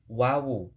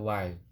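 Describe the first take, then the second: First: The letter name has two syllables. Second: The letter name has one syllable. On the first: The speaker calls it right. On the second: The speaker calls it wrong. "jangan wai"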